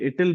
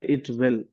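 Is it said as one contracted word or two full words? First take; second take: contracted; full words. First: It is squeezed into one contracted word. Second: It is said as two separate full words. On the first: The speaker calls it wrong. "इटिल बोलेंगे क्या?" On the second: The speaker calls it right. "हम pronounce ऐसा ही करेंगे"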